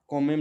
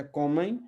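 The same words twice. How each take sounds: First: कोमेम with a closed final m; कोमेम ending on a clear m; wrong pronunciation. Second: कोमें with the last vowel through the nose; nasal glide ending on कोमें. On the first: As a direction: say कोमेम with lips shut at the end. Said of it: "कोमेम नहीं पढ़ना है". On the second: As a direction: say कोमें leaving the final m unclosed. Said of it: "नाक में ही रह जाएंगे". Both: Shown as a demonstration.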